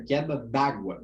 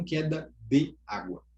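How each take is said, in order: First: "queda d'água" with the E dropped; "d'água" as one word, no vowel after D; elided form. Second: "queda de água" with "de" sounded fully on its own; unelided "de água", the E clearly kept; separated full form. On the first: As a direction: join the D straight onto "água" in "d'água". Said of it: "esse desaparecimento dessa letra ali". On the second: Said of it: "e não queda de água". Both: Shown as a demonstration.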